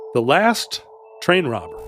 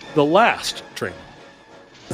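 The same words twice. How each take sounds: First: The stress falls on the word train. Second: The stress falls on the word last.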